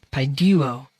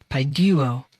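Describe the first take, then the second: The two takes are said the same way.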